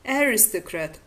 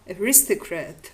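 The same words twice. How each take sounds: First: "aristocrat" stressed on AR; stress on first syllable. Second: "aristocrat" stressed on RIS; stress on second syllable. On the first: Lecturer giving an example of variation, "aristocrat" stressed on the first syllable. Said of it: "The stress on the initial syllable". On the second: Lecturer giving the other variant, "aristocrat" stressed on the second syllable. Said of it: "or the stress on the second syllable". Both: Shown as a demonstration.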